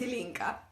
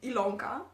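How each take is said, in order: First: The middle syllable has an 'i' vowel. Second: The middle syllable has an 'o' vowel. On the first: Her actual name. The speaker calls it right. "but my name is Ilinka" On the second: A version others have used. The speaker calls it wrong. "I've heard um, Ilonka. That's nice"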